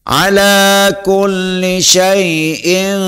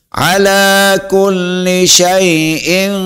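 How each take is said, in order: Both takes have the same delivery.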